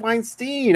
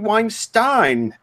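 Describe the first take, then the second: First: The name ends with a 'steen' sound. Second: The name ends with a 'stine' sound. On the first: The speaker calls it wrong. "Why is it Weinstein?" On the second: The speaker calls it right. "it should be Weinstein, like Rammstein"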